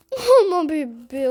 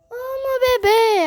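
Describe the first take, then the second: First: Said in the usual way. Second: Kitten voice. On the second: Real, not acted. Cooing at her cat.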